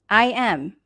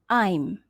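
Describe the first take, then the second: First: It is said as two full words. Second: It is contracted into one syllable.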